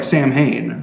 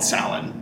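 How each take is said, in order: First: It is said like sam-hane. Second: It is said like sow-in. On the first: The speaker calls it wrong. "it's spelled like Sam Hain" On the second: The speaker calls it right. "You did say it properly"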